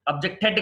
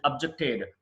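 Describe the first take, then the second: First: అబ్జెక్టెడ్ with a hard final "tet"; wrong pronunciation. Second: అబ్జెక్టెడ్ with a soft final d; correct pronunciation. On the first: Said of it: "కాదు". (అబ్జెక్టెడ్ చివర "టెట్" అని తప్పుగా) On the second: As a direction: say అబ్జెక్టెడ్ ending in a light "ted". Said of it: "అబ్జెక్టెడ్ కాదు". (అబ్జెక్టెడ్ చివర మెత్తని "డ్") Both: Shown as a demonstration.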